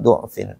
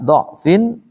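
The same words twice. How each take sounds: First: The first vowel is a 'u' sound. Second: The first vowel is an 'a' sound. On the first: "Bisa juga dibaca dhammah" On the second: "Yang pertama dibaca fathah"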